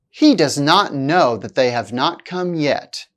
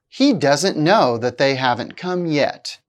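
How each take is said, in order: First: The verbs and not are said as full words. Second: The verbs and not are merged into contractions. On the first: The speaker calls it wrong. "without contractions" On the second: The speaker calls it right. "with contractions"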